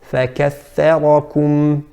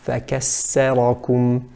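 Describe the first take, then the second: First: The middle consonant is a voiceless 'th' sound. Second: The middle consonant is an 's' sound. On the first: The speaker calls it right. "the correct pronunciation" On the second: The speaker calls it wrong. "Incorrect would be to say"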